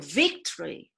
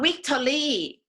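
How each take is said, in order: First: The word starts with a clear V. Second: The word starts without a clear V. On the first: The speaker calls it right. "It's a" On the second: The speaker calls it wrong. "It's not a"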